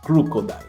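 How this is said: It is said in a Dracula-like voice.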